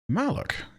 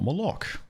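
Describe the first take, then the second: First: The name is said like Malak, with open a-vowels. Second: The name is said like Moloch, with o-vowels. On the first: The speaker calls it right. "Kind of like in KOTOR" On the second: The speaker calls it wrong. "not Moloch"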